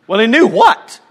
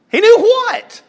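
First: Plain. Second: Much higher, loud "knew what?"; exaggerated high puzzled question. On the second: Preacher voicing the congregation's confusion, high and loud. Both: Shown as a demonstration. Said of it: "repeats higher".

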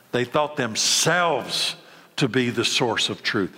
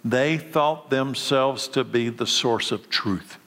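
First: "themselves" drawn out slowly and followed by a short pause; stress on themselves. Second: Said in the usual way. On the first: Real, not acted. Preacher drives home the Pharisees' arrogance, slow heavy stress on "themselves". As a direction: lean long and hard on "themselves", then pause.

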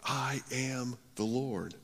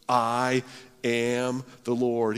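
First: I am the Lord, soft and slow; hushed. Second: Said in the usual way. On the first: Shown as a demonstration. Preacher echoing God's words hushed and slow. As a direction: let it settle, softly and slowly. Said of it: "repeats it softly after pause". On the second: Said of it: "God's response".

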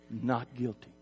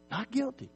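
First: Said in the usual way. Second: Not guilty rising high on guilty, soft; pitch lifted on guilty. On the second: Shown as a demonstration. Pastor echoing the verdict to the congregation, rising high on guilty. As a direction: lift guilty up as a wondering echo.

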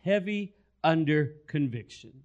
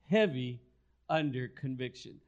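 First: Said in the usual way. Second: "Heavy" alone, pause, then "under conviction" softer and drawn out; slow emphatic repeat. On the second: Shown as a demonstration. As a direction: let "Heavy" sink in before "under conviction".

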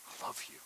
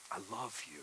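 First: Breathy whispered I love you. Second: Soft, tender. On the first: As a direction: whisper it tenderly, like a secret. Whispered divine love words. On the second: Repeated softly after whisper. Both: Acted.

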